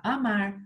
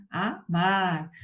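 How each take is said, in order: First: Said in the usual way. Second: "Amar" split in two, MAR drawn out; teacher sounding out "Amar" with a long final syllable; stress on last syllable. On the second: Shown as a demonstration. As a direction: break "Amar" as a... MAR, leaning on the end. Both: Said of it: "É uma oxítona não acentuada".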